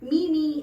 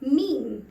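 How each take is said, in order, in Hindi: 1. यह दो अक्षरों में बोला जाता है, 'mee-mee'। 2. यह एक अक्षर में बोला जाता है, 'meem'। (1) "ऐसा सुना है" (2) "जबकि ये वर्ड है मीम"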